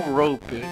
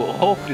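First: It is pronounced unlike the English word rope. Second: It is pronounced like the English word rope. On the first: The speaker calls it wrong. "não rope" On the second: The speaker calls it right. "tipo, rope"

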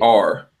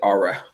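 First: The letter is said as one plain syllable. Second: The letter is stretched into two syllables. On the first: "He wouldn't say R" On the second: "he said Ara"

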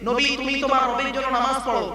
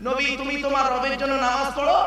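The two takes are said the same way.

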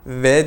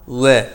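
First: It is said with teeth on lip, like v. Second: A plain rounded w sound, not thick. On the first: The speaker calls it wrong. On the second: The speaker calls it right.

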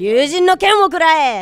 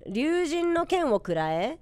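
First: It is said in an angry tone. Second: It is said in a neutral, questioning tone.

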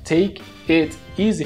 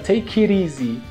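First: The t in 'it' is a clear t. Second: The t in 'it' is a quick flap. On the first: "Você fala take it easy" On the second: "fica take it easy. O T vira meio que um R ali"

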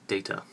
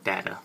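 First: The word is said in a non-American accent. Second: The word is said in an American accent.

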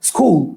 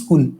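First: The word starts directly with the s consonant. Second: An extra vowel is added before the s. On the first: "এটার actual উচ্চারণটা কি বলেন" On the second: "শব্দের আদিতে নতুন করে একটা স্বর রস্যই আমরা উচ্চারণ করছি"

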